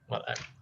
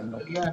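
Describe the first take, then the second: First: The middle consonant is a glottal stop. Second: The middle consonant is a y sound. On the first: It is the formal standard form. "Tapi kalau usaha malan" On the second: It is the everyday colloquial form. "Jadi dia mengubah hamzah menjadi ya"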